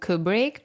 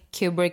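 First: The name has the American pronunciation. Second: The name has the British pronunciation. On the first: This is how Americans say the name. "mostly Americans that call him Kubrick" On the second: This is how people in England say the name. "Kubrick is what we call him over here in England"

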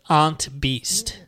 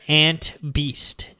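First: It is said in a Massachusetts accent. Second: It is said in a general American accent.

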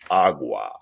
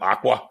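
First: The word is pronounced carefully. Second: The word is pronounced carelessly. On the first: The speaker calls it right. "with the proper, enunciation" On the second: The speaker calls it wrong. "like the stupid people who say"

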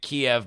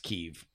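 First: The name has the Russian pronunciation. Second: The name has the Ukrainian pronunciation. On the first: The speaker calls it wrong. "pronouncing it Kiev my entire life" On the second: The speaker calls it right. "realized that it's Kiev"

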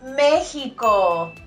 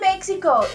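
First: The x is sounded as a throaty h. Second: The x is sounded as ks. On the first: The speaker calls it right. "it's Mexico" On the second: The speaker calls it wrong. "Don't say Mexico"

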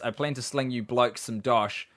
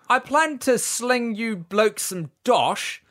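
First: It is read in the speaker's usual accent. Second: It is read in a put-on British accent.

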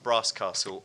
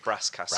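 First: It is said in a posh southern accent. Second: It is said in a northern English accent. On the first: "I never noticed how posh I sound" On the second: "If you're in the north, it would be"

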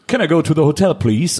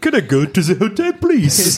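First: It is said in a plain English accent. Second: It is said in a put-on French accent.

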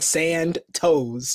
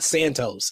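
First: The first half is heavily emphasized and lingers. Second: The name is said plainly without extra emphasis. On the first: This imitates how someone else said the name. "He emphasizes the first half of the name, and it sounds like he's saying Sand Toes" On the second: This is the name said normally. "not Santos"

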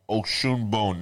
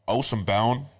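First: The surname is said with a Yoruba pronunciation. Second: The surname is said with an Irish pronunciation. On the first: "Now that's in the Yoruba" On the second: "In the Irish"

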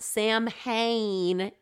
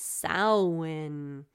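First: The word is read the way English spelling suggests. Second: The word is said the Gaelic way. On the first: The speaker calls it wrong. "It's not Samhain" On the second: The speaker calls it right. "as the Celts would say"

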